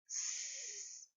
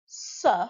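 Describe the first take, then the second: First: It is said as a bare hissing sound. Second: It is said as the letter name 'ess'. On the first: The speaker calls it right. "we make the sound S" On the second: The speaker calls it wrong. "we don't say S"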